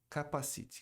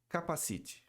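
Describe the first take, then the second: First: It sounds like the Portuguese word capacete. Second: The same.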